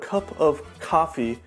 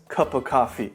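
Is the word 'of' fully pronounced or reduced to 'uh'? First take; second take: fully pronounced; reduced. First: The word 'of' is fully pronounced. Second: The word 'of' is reduced to 'uh'. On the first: "instead of cup of coffee" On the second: "we take the word of and just make the uh sound"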